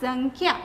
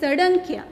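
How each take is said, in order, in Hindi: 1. अनुनासिक अक्षर को न-ध्वनि के साथ पढ़ा जाता है। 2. अनुनासिक अक्षर को ड-ध्वनि के साथ पढ़ा जाता है। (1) "સડંખ્યા નહીં પણ સંખ્યા" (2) "કેટલાક બાળકો એવી રીતે એને વાંચતા હોય છે"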